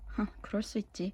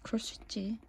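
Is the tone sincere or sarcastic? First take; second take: sarcastic; sincere. First: It is said mockingly, with a scoffing sigh. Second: It is said sincerely and warmly.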